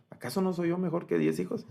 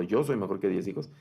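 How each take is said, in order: First: High-pitched questioning tune to the end; rhetorical question. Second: Matter-of-fact statement, no questioning lift in pitch; plain affirmation. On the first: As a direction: pose it high, as a question needing no answer. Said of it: "al hacer esa pregunta retórica". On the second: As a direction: say it as a settled assertion in everyday pitch. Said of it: "Le está diciendo". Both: Acted.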